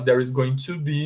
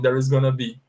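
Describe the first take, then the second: First: Going to is said fully, as two words. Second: Going to is reduced to one word, gonna. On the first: "ao invés de falar there is going to be" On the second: "no inglês falado, é pronunciado assim"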